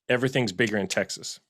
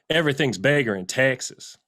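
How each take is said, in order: First: It is said in the speaker's normal voice. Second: It is said in a put-on character voice.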